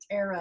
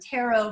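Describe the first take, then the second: First: The word has a rural, hillbilly-style pronunciation. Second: The word has a standard pronunciation.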